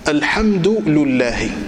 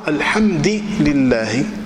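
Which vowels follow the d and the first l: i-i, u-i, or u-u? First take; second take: u-u; i-i. First: The d takes u and the l takes u. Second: The d takes i and the l takes i. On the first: "أتبع اللام حركة الدال" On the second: "أتبع الدال حركة اللام"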